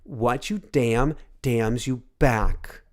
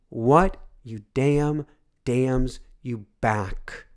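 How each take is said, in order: First: It is said at a normal pace. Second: It is said more slowly.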